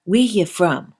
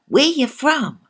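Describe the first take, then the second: First: Said in the usual way. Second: High, loud Jamaican lilt; Jamaican accent. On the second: Pretend. Host repeats in Jamaican accent.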